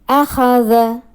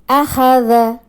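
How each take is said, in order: Both takes have the same delivery.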